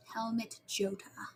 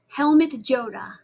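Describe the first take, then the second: First: Slow, hushed whisper; very soft, drawn-out whispered repeat; whispered echo. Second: Said in the usual way. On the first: Real, not acted. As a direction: whisper the name slowly to yourself. Echoes the same name in whisper.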